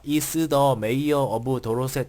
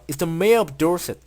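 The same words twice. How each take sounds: First: Each word is said separately, without linking. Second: All the words run together like one word. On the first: The speaker calls it wrong. "이라고 읽지 않고" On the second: The speaker calls it right. "한 단어처럼"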